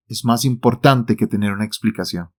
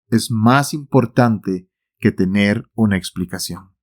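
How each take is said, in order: First: Said in the usual way. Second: Más leaned on, the whole line slowed down; slower repeat with stress on más. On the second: Shown as a demonstration. Preacher repeating his point to the congregation, slow with más stressed. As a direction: repeat it slowly, pressing on más. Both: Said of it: "lo repito".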